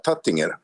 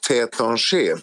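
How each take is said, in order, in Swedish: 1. Namnet uttalas som det stavas, på svenskt vis. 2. Namnet uttalas på franskt vis. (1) "jag tror de flesta skulle säga Tattinger" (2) "nu uttalar jag det på mitt sätt igen"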